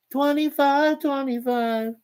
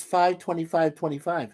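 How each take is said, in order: First: High, slow, sing-song repeat; cutesy echo. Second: Said in the usual way. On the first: Shown as a demonstration. Host echoing a viewer's cute date, high and slow. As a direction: coo the date back like it's adorable. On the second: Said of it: "Oh, isn't that cute?".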